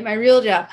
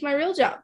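First: "real" hit louder and falling; stress on real. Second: Said in the usual way. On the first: Real, not acted. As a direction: lean hard on "real" in "My real job". Repeats my real job for emphasis.

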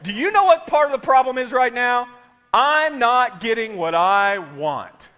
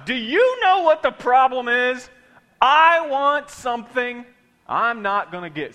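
First: Loud, slow attitude-filled retry; with stank. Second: Loud, slow sassy delivery; with stank. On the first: Preacher retries the line for congregation, sassy and loud. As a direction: put more stank on it. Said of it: "Let's try it again". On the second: Preacher practises the line with congregation, sassy and loud. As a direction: give it real stank. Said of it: "say it with some stank on it". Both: Shown as a demonstration.

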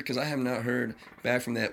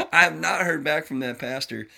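First: Said in the usual way. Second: Louder, still laughing through the words; repeating the line with laughter still in it. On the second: Real, not acted.

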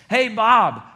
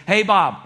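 First: Loud, higher-pitched mocking call-out; joking sarcasm. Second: Loud, higher call across the room; raised voice. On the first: Coworker calls out Bob before the room, joking and sarcastic. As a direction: tease him in front of everyone. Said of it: "in a joking, sarcastic way". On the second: Acted. Coworker hails Bob before everybody, voice raised. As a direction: call out to get everyone's attention. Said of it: "you raise your voice".

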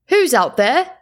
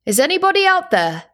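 First: Man calling into the dark, rising. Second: High, loud call into the night; calling out, higher. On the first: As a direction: call out across the snow. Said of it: "a man called from the village". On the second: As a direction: call out again, more urgently. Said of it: "the man called again". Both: A narrator's reading.

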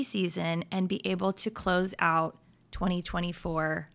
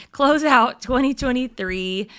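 First: Said in the usual way. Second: Corrected year said louder with a rise; correcting herself. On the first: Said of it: "I mean, sorry". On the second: Shown as a demonstration. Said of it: "I'm getting ahead of myself".

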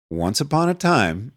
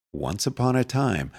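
First: "Once upon a time" restated more firmly, pitch lifted at the end; insistent restart. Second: Said in the usual way. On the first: A narrator's reading. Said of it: "I say". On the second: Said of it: "Once upon a time, I say".

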